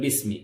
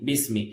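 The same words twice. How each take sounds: The two takes are said the same way.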